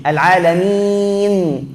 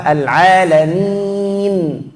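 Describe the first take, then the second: First: Al alamin with lips closing too soon, slow; teacher shows the wrong ending; wrong early mim. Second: Al alamin finishing the nun before closing, slow; teacher models the right ending; correct full nun. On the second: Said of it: "Yang betul apa?". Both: Shown as a demonstration.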